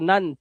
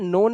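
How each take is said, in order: First: The vowel is pronounced as a short 'uh'. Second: The vowel is pronounced as a long 'o'. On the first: The speaker calls it right. "इसे पढ़ना है नन। ध्यान से सुन लो" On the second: The speaker calls it wrong. "इसे नोन नहीं पढ़ना है"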